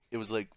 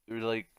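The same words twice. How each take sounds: The two takes are said the same way.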